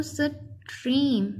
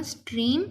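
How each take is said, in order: First: stream broken as "स", then "trim"; read in separate parts. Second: Said in the usual way. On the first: Shown as a demonstration. Teacher showing the alternative reading, stream in two parts. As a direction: split stream after the first sound. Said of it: "वैसे अलग-अलग करके पढ़ें". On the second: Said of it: "इसको वैसे इकट्ठा पढ़ लें".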